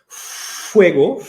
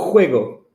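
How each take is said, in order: First: It begins with a blown f sound. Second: It begins with a rough throaty sound. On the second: "lá da garganta"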